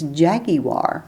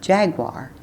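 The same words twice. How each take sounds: First: It is said with a British pronunciation. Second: It is said with an American pronunciation. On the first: The speaker calls it right. "that was the way that they pronounced it" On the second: The speaker calls it wrong. "It's not Jaguar"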